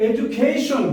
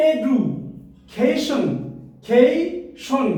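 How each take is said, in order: First: Said in the usual way. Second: education pulled apart slowly, a pause between the parts; slow, segmented education for teaching syllables; broken into syllables. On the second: Shown as a demonstration. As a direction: say education piece by piece, drawing out each chunk. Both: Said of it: "এখন আমরা এটাকে ভেঙে ভেঙে".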